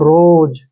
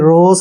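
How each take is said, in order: First: The word ends with a z sound. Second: The word ends with an s sound. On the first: The speaker calls it right. "एस का उच्चारण यहाँ पे जय होगा" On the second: The speaker calls it wrong. "एस नहीं पढ़ना आपने, रोज नहीं पढ़ना इसको"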